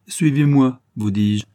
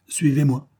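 First: Loud, high order falling at the end; insistent command. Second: Raised, controlled order; brief command. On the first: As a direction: repeat the order, brooking no refusal. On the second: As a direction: tell the prisoner to come along, firmly. First order to the prisoner. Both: A narrator's reading.

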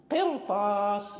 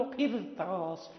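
First: قرطاس slow, with a full heavy ra and a deep vowel after the q; heavy ra, correct way. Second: قرطاس with a light, thin ra and a front i after the q, the wrong reading. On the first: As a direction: stretch قرطاس and give the ra its heavy, thick sound. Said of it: "لا ترقق الراء ولكن تفخم". (قرطاس بتفخيم الراء، الصواب) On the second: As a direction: say قرطاس with the ra thinned, as the mistake to avoid. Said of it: "لا نقول قرطاس". (قرطاس بترقيق الراء، خطأ) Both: Shown as a demonstration.

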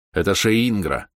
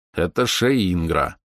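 First: Said in the usual way. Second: Slow patient repeat. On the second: A narrator's reading. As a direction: say it patiently, slowly. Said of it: "терпеливо повторил я". (терпеливо и медленно)

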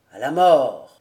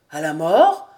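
First: Loud, low, resolute exclamation; exalted cry. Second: Loud, puzzled echo rising sharply; uncomprehending question. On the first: Old nobleman illuminated by sublime enthusiasm, crying out low and firm. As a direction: proclaim it with solemn fervour. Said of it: "s'écria le vieillard". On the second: Cousin repeats the old man's words, baffled and rising. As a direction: question it in startled incomprehension. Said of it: "répéta Vaunois sans comprendre". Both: A narrator's reading.

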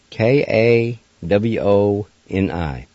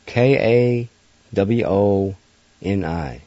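No difference in how they are said.

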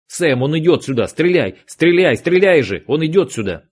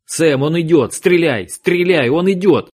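First: Yelling a frantic warning; urgent shout. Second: Higher, louder frantic yell; urgent shout. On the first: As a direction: shout it out to your partner. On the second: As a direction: scream the warning to your partner. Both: Acted. Agent yelling warning in gunfight.

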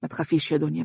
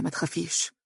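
First: Soft steady reassurance; calm her fear gently; reassuring. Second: "ما تخافيش" repeated much softer, almost breathed; hushed reassurance. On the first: Husband comforting his weeping wife, softly reassuring. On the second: Husband soothing wife, repeating "ما تخافيش" hushed. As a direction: sink "ما تخافيش" to a near whisper. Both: A narrator's reading. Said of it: "ربت على كتفها مطمئنا".

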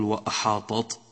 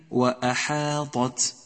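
First: وأحاطت with the final ت as heavy as ط; blurred Ta-ta error. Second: Slow وأحاطت, heavy ط then light ت; correct Ta-ta distinction. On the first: Teacher showing the mistake to avoid, وأحاطت with ط and ت alike. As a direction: make وأحاطت end on an emphatic t. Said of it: "فلا تقل وأحاطت". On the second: Teacher correcting the mistake, slow وأحاطت with distinct ط and ت. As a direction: draw out وأحاطت and finish on a light t. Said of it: "فرق في النطق بين الطاء وبين التاء". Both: Shown as a demonstration.

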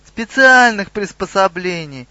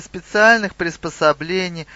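First: СПЕЦИАЛЬНЫХ stressed, louder and higher; insistent official stress on "Специальных"; emphatic repetition. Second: Said in the usual way. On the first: A narrator's reading. Officer repeats it to puzzled troll.

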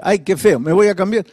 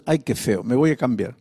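First: Said in the usual way. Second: Low, soft grumble to yourself; soft private mumble, pitched low; muttered at the mirror. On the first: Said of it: "en lugar de decir". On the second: Retold or imitated. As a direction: mutter it quietly to your reflection. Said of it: "¿Cómo decías?".

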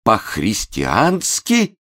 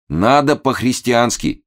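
First: Very slow, high, rising question; bewildered. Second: High, earnest, slowed exhortation; agitated urging. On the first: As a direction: stretch "По-христиански" into lost disbelief. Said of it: "растерянно пролепетал". (растерянно, протяжно переспрашивает) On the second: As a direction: urge "по-христиански" as a heartfelt statement. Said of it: "очень волнуясь". (проникновенно и взволнованно убеждает) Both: A narrator's reading.

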